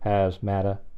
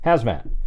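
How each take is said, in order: First: An extra syllable follows the final t. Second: The word ends cleanly on the final t. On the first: The speaker calls it wrong. "You don't go hazmata" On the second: The speaker calls it right. "you say it like that"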